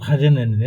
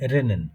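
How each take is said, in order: First: The R is a rough sound made in the throat. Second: The R is made with the tongue tip. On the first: Native speakers say it this way. "গুটুরাল খাজেনেন এরকম বলে" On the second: Everyone will still understand it. "ওটা র মতন ওইভাবেই খেয়াল করেন"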